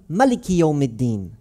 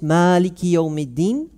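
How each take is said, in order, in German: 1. Das Wort wird in der Warsh-Variante gesprochen. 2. Das Wort wird in der Hafs-Variante gesprochen. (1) "in der Al-Fatiha vorgetragen wird" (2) "wie man das vielleicht gewohnt ist, wenn man die Qira'a Hafs liest"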